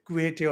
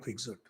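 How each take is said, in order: First: The name is pronounced the Spanish way. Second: The name is pronounced the English way. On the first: The speaker calls it wrong. "Spanish pronunciation" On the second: The speaker calls it right. "I prefer calling Quixote"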